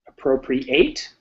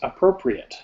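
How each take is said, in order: First: The last syllable is full, like 'eight'. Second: The last syllable is reduced, like 'it'. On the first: It means to take. "like eight" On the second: It means suitable, not to take. "if it's not to take, it's appropriate"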